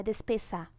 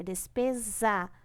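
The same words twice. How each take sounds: First: "despesa" with a hissed ss in place of the z, like "despessa"; wrong pronunciation. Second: "despesa" with a buzzing z before the final a; corrected "despesa", ending in a clear -peza; correct Z pronunciation. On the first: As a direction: say "despesa" wrongly, with a voiceless S before the final a. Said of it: "não é despesa". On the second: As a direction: say "despesa" with the last S voiced as Z, firmly. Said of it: "é som de Z entre duas vogais". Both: Shown as a demonstration.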